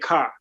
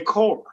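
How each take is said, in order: First: The vowel is an open 'ah' sound. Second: The vowel is a rounded 'oh' sound. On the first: This is how Chicago people say it. "in Chicago, we say car" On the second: This is how people further south say it. "if you go to Indianapolis or Louisville, Tennessee, they say core"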